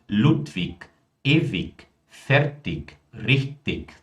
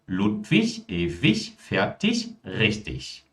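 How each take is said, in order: First: The words are said with a southern regional pronunciation. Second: The words are said with standard German pronunciation. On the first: This is how it is said in regional dialects. "Podemos ter também esse tipo de pronúncia com certeza" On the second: This is the standard form of the language. "Alemão padrão, Hochdeutsch"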